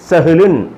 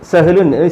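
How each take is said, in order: The two takes are said the same way.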